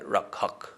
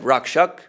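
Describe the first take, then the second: First: The middle consonants sound like 'kh'. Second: The middle consonants sound like 'ksh'. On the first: "the S is pronounced like an H" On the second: "Instead of Rakshak"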